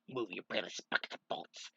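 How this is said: It is said in a put-on villain character voice. The speaker calls it right. "Let me do that again because I like doing Robotnik's voice"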